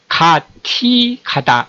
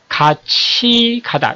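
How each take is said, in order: First: The middle consonant is an aspirated t sound. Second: The middle consonant is an aspirated ch sound. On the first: The speaker calls it wrong. "가티 가다 이렇게 발음하는 게 아니고" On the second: The speaker calls it right. "같이 가다 이렇게 발음을 하죠"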